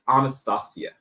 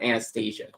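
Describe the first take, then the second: First: The name is said the traditional Russian way. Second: The name is said the Americanized way. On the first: The speaker calls it right. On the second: The speaker calls it wrong. "It's not"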